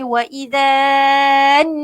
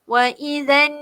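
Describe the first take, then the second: First: The vowel in 'idzan' is drawn out long. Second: The vowel in 'idzan' is kept short. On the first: The speaker calls it wrong. "Jadi sebab tu saya panjang Ustazah. Tak boleh" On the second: The speaker calls it right. "Terus masuk kepada huruf nun"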